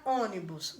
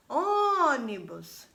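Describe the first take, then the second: First: Said in the usual way. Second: "Ônibus" with a very long, higher Ô; stretched first syllable. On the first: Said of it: "Vamos chamar a palavra ônibus?". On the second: Shown as a demonstration. Teacher calling the word to find its strong syllable, stretched Ô in Ônibus. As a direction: call out "Ônibus", holding the Ô before finishing quickly. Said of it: "Qual foi o que eu mais demorei?".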